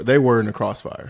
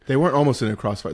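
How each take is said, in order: First: "They were in a crossfire" with the weight on were, almost dropped; firm correction, lean on were; stress on WERE IN. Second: WEREN'T hit hard with a falling tune; stress on WEREN'T. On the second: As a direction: punch weren't in "They weren't almost in a crossfire". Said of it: "they were almost in a crossfire". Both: Real, not acted.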